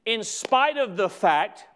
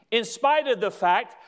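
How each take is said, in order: Both takes have the same delivery.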